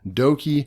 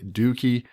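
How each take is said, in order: First: The first vowel sounds like 'oh'. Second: The first vowel sounds like 'oo'. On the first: The speaker calls it right. "okie dokie is spelt the same way. So doki, okie dokie" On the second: The speaker calls it wrong. "he's saying Dookie, and to me, I just it does not sound right"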